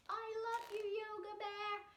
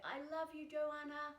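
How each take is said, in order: First: A higher, cute bear voice; Yoga Bear voice. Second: Said in the usual way. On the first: Acted. Teacher voices the toy bear saying its affirmation in a higher cute voice. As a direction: speak for the cuddly bear puppet. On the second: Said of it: "So I say".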